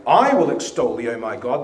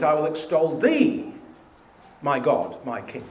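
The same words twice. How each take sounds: First: "I" punched hard and loud at the start, the rest falling away; stress on I. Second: "thee" lifted with a rising tune, "I" left light; stress on thee. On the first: Teacher showing the self-centred reading, loud stress on "I". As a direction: lean on "I" as if the psalm were about yourself. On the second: Teacher showing the God-centred reading, stress on "thee". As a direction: put the weight on "thee", toward God. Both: Shown as a demonstration. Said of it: "you change the emphasis to a different syllable".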